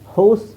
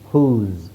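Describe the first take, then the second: First: The vowel is an 'oh' sound. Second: The vowel is an 'oo' sound. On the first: The speaker calls it wrong. "ಹೋಸ್ ಅಂತ ಹೇಳಲ್ಲ" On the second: The speaker calls it right. "ಓನ ಊ ಅಂತ ಹೇಳ್ತೀವಿ"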